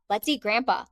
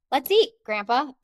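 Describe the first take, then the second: First: Said in the usual way. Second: "eat" punched high and loud, then a break before "Grandpa"; high, emphatic "eat", rising "Grandpa" set apart; stress and pause after EAT. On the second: Shown as a demonstration. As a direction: call "Let's eat" out brightly, pause, then address "Grandpa". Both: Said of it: "I had a different sentence".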